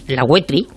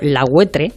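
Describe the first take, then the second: First: The name ends in an i sound. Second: The name ends in an e sound. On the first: This is the name as the locals say it. "que ellos llaman La Huetri" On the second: This is the name as others call it. "llamado La Huetre"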